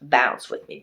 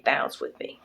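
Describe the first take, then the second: First: Half-sung hip-hop hook; casual sing-along of a rap hook; singing the lyric. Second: The hook repeated in a whisper; whispered sing-along echo. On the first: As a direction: croon the hook lightly. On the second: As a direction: echo it back under your breath. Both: Retold or imitated. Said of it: "this song comes in".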